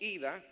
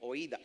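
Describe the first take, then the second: First: The word begins with an ee sound. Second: The word begins with an oy sound. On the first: This is the modern Greek pronunciation. "en el griego moderno se pronuncia como ida" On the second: This is the classical Greek pronunciation. "en el griego clásico se pronuncia como oída"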